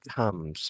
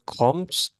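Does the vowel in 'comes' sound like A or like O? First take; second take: A; O. First: The vowel sounds like an A. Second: The vowel sounds like an O. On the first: The speaker calls it right. "it's comes, like with A" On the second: The speaker calls it wrong. "Instead of comes"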